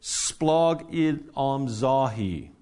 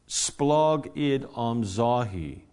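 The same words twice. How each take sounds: First: Splogidamzahi said slowly, syllable by syllable: splo-gi-dam-za-hi; careful Greek pronunciation. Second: Splogidamzahi said again slowly, splo-gi-dam-za-hi; repeated Greek word. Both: Shown as a demonstration. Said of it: "I'll try and pronounce it properly".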